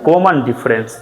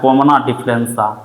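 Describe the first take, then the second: First: Each word ends without any added vowel. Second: Each word ends with an added 'a' vowel. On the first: This is how everyone across the country understands it. "ताकि ऑल ओवर इंडिया समझे इस बात को" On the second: This is how it is said in the home village. "हमारे गांव की भाषा में बोला जाता है"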